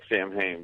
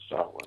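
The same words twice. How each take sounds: First: The word is read out as it is spelled. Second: The word gets its traditional Celtic pronunciation. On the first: "looks like Samhain" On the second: "the Celtic pronunciation is Samhain"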